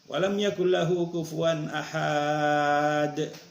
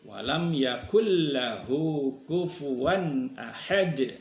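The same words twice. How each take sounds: First: The vowel in ahad is drawn out long. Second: The vowel in ahad is kept short. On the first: The speaker calls it wrong. "Keliru itu" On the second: The speaker calls it right. "Jadi ahad ini pendek"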